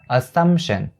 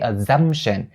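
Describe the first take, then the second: First: The second syllable starts with an S sound. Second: The second syllable starts with a Z sound. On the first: The speaker calls it right. "it also starts with the S sound" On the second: The speaker calls it wrong. "You can't say"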